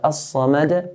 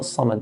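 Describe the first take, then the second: First: The final d ends with a bouncing release. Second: The final d ends without a bouncing release. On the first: The speaker calls it right. "but As-Samad, put qalqala at the end" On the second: The speaker calls it wrong. "and not Samad"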